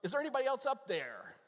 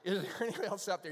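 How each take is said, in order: First: High, loud punchline shout; hammed-up desperate call; Bob calling out. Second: Fast, loud repeat of a punchline; quick punchline recap. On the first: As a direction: holler up to the sky for someone else. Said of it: "and Bob goes". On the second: Retold or imitated. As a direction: rattle it off quickly, still projected. Repeats punchline to explain joke.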